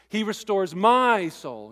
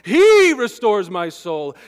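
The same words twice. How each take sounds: First: The word "my" carries the main stress. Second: The word "He" carries the main stress. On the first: The focus is on the reader's own benefit. The speaker calls it wrong. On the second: The focus is on God's action. The speaker calls it right.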